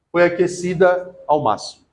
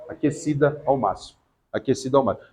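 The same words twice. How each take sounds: First: Said in the usual way. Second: "Aquecida ao máximo" said again, much softer and lower; quiet repeat. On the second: Shown as a demonstration. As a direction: repeat it softly, letting it sink in. (repetido baixinho e grave) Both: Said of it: "no hebraísmo, na interpretação assim".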